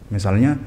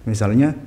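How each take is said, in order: The two takes are said the same way.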